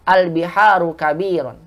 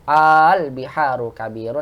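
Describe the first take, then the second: First: The opening a is said short. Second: The opening a is drawn out long. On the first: It states that the sea is big. "ini sama" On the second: It asks whether the sea is big. "digabung menjadi hamzah panjang"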